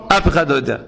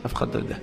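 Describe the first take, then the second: First: Said in the usual way. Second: Soft unvoiced whisper of אף אחד לא יודע. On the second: Real, not acted. Preacher confiding to listeners, whispered. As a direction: breathe it as a secret.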